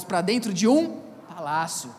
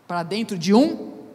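First: Resolve the line as the crowd answers; completed answer. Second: "um" stretched loud with a rising pause; suspended question. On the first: ("um" alongado, caindo até "palácio") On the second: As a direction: leave "um" hanging upward for the crowd to finish. ("um" alongado e forte, subindo em suspense) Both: Shown as a demonstration. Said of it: "vamos lá, irmãos".

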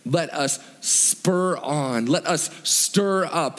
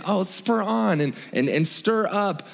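First: Slow, deliberate weight on SPUR ON and STIR UP; emphatic. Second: Higher-pitched, lightly put-on gentle phrasing; mild mock-gentle. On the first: Preacher urging the congregation with an emphatic phrase, slow and emphatic. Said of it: "an, an emphatic phrase". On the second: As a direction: toss it off as a mild suggestion. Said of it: "these kind of sound like, gen". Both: Shown as a demonstration.

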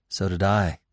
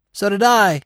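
First: Said in the usual way. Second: High, loud bird's croak. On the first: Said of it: "another voice cried". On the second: A narrator's reading. Jay chiming in from above, loud croak. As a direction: croak it out loudly from a branch. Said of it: "came a croak from above".

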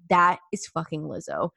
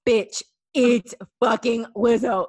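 First: Said in the usual way. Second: Louder, slower, emphatic insistence; mock exasperated insistence; insistent. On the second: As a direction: hammer it home to a doubting friend. Insisting after friend denies it.

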